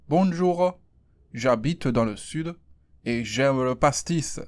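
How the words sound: It is spoken in a southern French accent. "Et avec accent"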